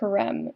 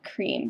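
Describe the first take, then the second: First: The vowel is short, like 'krem'. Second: The vowel is long, like 'kreem'. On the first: The speaker calls it right. "I go by creme" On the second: The speaker calls it wrong. "not cream"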